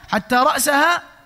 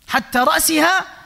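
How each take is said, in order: First: The word ra's ends with an a vowel. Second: The word ra's ends with an i vowel. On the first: The head was eaten too. "بالنصب" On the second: The head was not eaten. "كسر الرأس، لو كسر الرأس يعني بحركة الكسرة"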